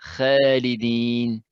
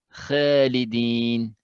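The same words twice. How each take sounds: The two takes are said the same way.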